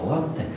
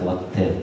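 First: The word is said in an Italian-like way. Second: The word is said in a French-like way. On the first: Roman culture holds its ground. The speaker calls it right. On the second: Parisian culture wins over Roman. The speaker calls it wrong.

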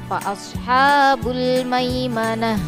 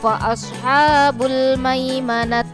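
First: The last word ends with an h sound. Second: The last word ends with a t sound. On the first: The speaker calls it right. "Yang betul adalah" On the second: The speaker calls it wrong. "Jadi membacanya bukan seperti ini"

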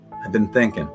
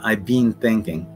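First: The word 'been' has a short vowel, like 'bin'. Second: The word 'been' has a long vowel, like 'bean'. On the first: The speaker calls it right. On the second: The speaker calls it wrong.

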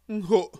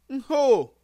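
First: It is said with a glottal stop. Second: It is said without a glottal stop. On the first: "Avec le coup de glotte" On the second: "Avec la nasalisation"

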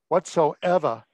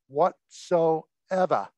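First: It is said with a general accent. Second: It is said with a Boston accent.

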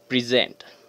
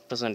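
First: The stress is on the second syllable. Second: The stress is on the first syllable. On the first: It names the action of giving. "Here the action or the verb, it is present" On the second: It names a thing given as a gift. "Present is the gift"

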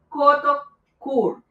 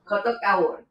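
First: The second word is said with one plain vowel. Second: The second word is said with a gliding vowel. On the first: The speaker calls it wrong. "no sé si estoy pronunciando bien" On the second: The speaker calls it right. "Me estaba comiendo una letra"

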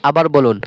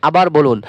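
The two takes are said the same way.

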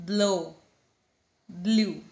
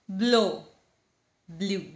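The two takes are said the same way.

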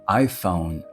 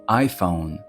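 Both takes have the same delivery.

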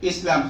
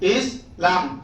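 First: The word is said as one unbroken piece. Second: The word is broken into two separate parts.

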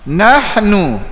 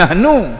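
First: The h is a harsh, throaty breath. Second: The h is a soft, plain breath. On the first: The speaker calls it right. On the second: The speaker calls it wrong.

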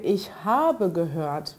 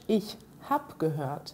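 First: The e at the end of habe is pronounced. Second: The e at the end of habe is dropped. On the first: This is how it is written. "wie man es im schriftlichen Deutsch schreiben würde" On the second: This is how it is spoken casually. "sage ich im gesprochenen Deutsch"

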